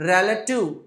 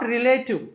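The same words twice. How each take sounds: First: The first syllable is pronounced 're'. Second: The first syllable is pronounced 'ri'. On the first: The speaker calls it right. "ఆర్ఈతో start అయితే రే పలకాలండి" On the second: The speaker calls it wrong. "Not రిలేటివ్"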